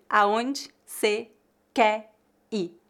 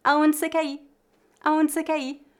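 First: "Aonde você quer ir" slow and separated as "aonde, cê, qué, i"; dropped final R. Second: "Aonde você quer ir" quick and higher, as "aonde cê qué i"; dropped final R. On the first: Teacher shows the vanishing R, "Aonde você quer ir" slow, reduced. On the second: Teacher repeats at speed, "Aonde você quer ir" linked, R-less. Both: Shown as a demonstration. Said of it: "a pronúncia da letra R desaparece".

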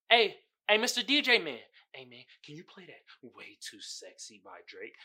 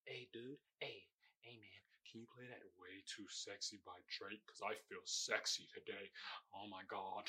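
First: An eager clubgoer begging the DJ; club guy asking the DJ. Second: Sultry club guy. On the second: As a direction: purr the request to the DJ like you feel sexy. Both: Retold or imitated. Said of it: "that's how it sounds in my head".

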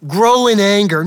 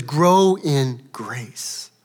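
First: Scornful rebuke. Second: Gentle, slow. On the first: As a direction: Grow in anger, loud, with a high fall on grow. No, none of that. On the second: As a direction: offer Grow in grace tenderly, very slowly. He says. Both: Acted.

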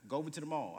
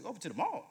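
First: Said in the usual way. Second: Higher, rising question on mall; echoing the advice in disbelief, pitched up; incredulous echo. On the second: Retold or imitated. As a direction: repeat it back like you can't believe it. Speaker echoes in disbelief.

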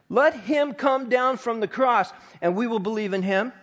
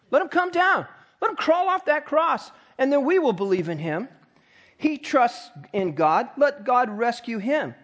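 First: Said in the usual way. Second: A much higher, taunting jeer at the cross; mocking taunt. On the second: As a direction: jeer it up like the crowd. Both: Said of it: "Talk about mocking".

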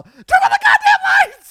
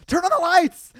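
First: Very high, very loud panicked shout; all-out, high-pitched frantic yell; full retold yell. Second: High, loud panicked demand; raised-voice plea, short of a full scream; retold yell. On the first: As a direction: re-enact screaming in fear at friends. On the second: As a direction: re-enact calling out in the dark, scared. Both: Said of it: "I literally yell".

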